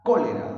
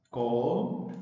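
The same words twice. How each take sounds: First: "Cólera" as one word, loud punch on "Có"; "Cólera" with a louder CÓ, then falling away; stress on first syllable. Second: "Cólera" slowly split as có-le-ra; "Cólera" in separate, drawn-out syllables; broken into syllables. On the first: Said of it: "el acento está en la sílaba co". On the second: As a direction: say "Cólera" syllable by syllable, pausing between each. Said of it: "En sílabas". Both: Shown as a demonstration.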